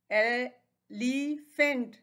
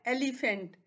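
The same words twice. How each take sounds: First: elephant very slow as ए, लि, फेंट; split into syllables. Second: Said in the usual way. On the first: Shown as a demonstration. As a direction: pause between the three beats of elephant. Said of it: "इसके three syllables हैं". (Elephant को तीन हिस्सों में रुककर) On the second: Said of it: "ये क्या है".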